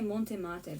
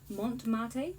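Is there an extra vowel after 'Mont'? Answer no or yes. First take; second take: yes; no. First: An extra vowel is inserted after 'Mont'. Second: No vowel is inserted after 'Mont'. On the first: The speaker calls it wrong. "I always used to say Montemate" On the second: The speaker calls it right. "there's no E here"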